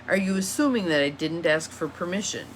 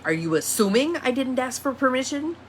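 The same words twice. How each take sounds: First: Said in the usual way. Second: ASSUMING leaned on, voice lifting higher through to the end; accusing question. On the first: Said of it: "If I say it that way". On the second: Shown as a demonstration. Teacher showing how a permission question turns loaded, accusing and high-pitched. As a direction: challenge them with a pointed, higher "assuming". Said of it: "It comes across entirely different".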